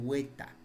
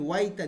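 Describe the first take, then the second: First: The first syllable has a plain 'e' vowel. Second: The first syllable has an 'ai' diphthong. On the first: This is the Conchucos regional form. "dicen hueta" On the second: This is the usual form. "En vez de decir guaita"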